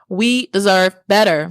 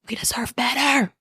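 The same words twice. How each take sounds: First: The phrase is said at a louder volume. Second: The phrase is said at a quieter volume.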